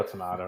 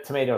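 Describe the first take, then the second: First: "tomato" with an open AH, tuh-MAH-toh; British-style tomato. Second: "tomato" with a long AY, tuh-MAY-toh; American-style tomato. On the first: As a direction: say "tomato" with the middle vowel of father. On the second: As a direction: say "tomato" rhyming with potato. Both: Shown as a demonstration. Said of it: "American pronunciation of niching".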